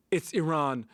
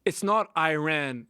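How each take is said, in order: First: Iran with a short first vowel and open "RAHN"; correcting pronunciation. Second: Drawn-out, slow "eye-RAN" for Iran, quoting the mistake; Iran with a long "eye" at the front; correcting pronunciation. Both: Retold or imitated. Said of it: "And then the reporter said".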